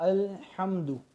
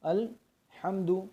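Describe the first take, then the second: No difference in how they are said.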